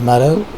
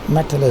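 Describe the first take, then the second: First: The middle consonant is a quick flap. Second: The middle consonant is a clear t.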